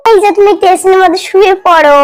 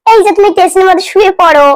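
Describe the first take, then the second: No difference in how they are said.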